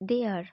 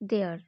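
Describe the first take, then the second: First: Both words are said separately in full. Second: The words are joined into one short syllable.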